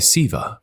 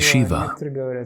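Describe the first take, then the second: First: The word begins with an 's' sound. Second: The word begins with a 'sh' sound. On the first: "some say Siva with an S" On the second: "Some say Shiva"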